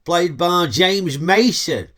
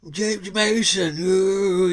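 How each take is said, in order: First: Said in the usual way. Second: Breathy James Mason. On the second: Retold or imitated. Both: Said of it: "he does that sort of breathing voice".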